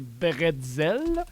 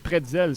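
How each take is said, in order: First: The word begins with a voiced B sound. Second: The word begins with a voiceless P sound. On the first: This is the French pronunciation. "la vraie bonne prononciation francophone" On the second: This is the English-style pronunciation. "c'est correct aussi"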